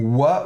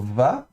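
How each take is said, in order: First: The syllable begins with a w sound. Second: The syllable begins with a v sound. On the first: This is the ancient pronunciation. "à l'ancienne, le vav se prononçait w, comme dans wagon" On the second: This is the modern pronunciation. "à la moderne on prononcera plutôt va"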